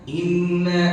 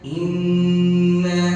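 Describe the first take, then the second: First: The nasal n sound is cut short. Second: The nasal n sound is held long. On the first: The speaker calls it wrong. "nggak boleh dibaca" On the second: The speaker calls it right. "harus baca inna inna seperti itu"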